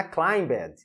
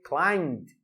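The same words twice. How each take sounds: First: Climbed said as claim-bed with b and extra syllable; wrong pronunciation. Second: Climbed as one syllable, silent b, ending in d; correct pronunciation. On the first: Teacher shows the wrong climbed with b and ed sounded. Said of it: "não é climbed". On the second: Teacher gives the class the correct Climbed. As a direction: say Climbed in one beat with a final d. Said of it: "como que vai ficar a pronúncia correta". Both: Shown as a demonstration.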